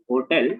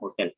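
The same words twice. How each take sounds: First: The h at the start is nearly silent. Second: The h at the start is clearly pronounced. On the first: This is the standard pronunciation. "the right pronunciation is hotel" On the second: This is how it is said in India. "even in India it becomes hotel"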